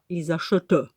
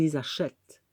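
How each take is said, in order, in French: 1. La terminaison finale est prononcée à voix haute. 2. La terminaison finale est muette. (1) "On ne dit pas" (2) "La terminaison, elle est muette"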